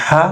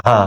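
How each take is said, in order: First: "হা" as a tight, raspy pharyngeal h; throaty Arabic ha. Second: "হা" with a light, open h; easy breath of h on "হা"; light Arabic ha. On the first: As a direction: squeeze the throat on "হা". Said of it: "হা উচ্চারণটা খেয়াল করেন". (গলা চেপে আরবি বড় "হা") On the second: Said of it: "এখানে কি". (হালকা খোলা গলায় ছোট "হা") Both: Shown as a demonstration.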